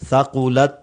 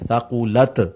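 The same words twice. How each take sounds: First: The final t is swallowed and not heard. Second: The final t has a strong bounce. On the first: "ता की आवाज को खा जाते हैं, आवाज आती ही नहीं" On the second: "इस तरह लोग पढ़ते हैं थकुलत, एक ये गलती है"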